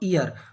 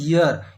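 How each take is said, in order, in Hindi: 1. शब्द सादी स्वर ध्वनि से शुरू होता है। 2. शब्द y व्यंजन ध्वनि से शुरू होता है। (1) "हम लोग गलत प्रोनाउंसिएशन कर रहे हैं" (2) "सही उच्चारण होता है ईयर"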